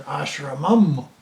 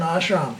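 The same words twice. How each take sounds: First: "ashramam" with a drawn-out final am; Kerala form. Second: "ashram" ending straight on the M; Karnataka form. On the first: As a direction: add a humming am to end "ashramam". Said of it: "In Kerala". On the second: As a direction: say "ashram" with no added syllable. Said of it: "in Karnataka, we're an ashram". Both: Shown as a demonstration.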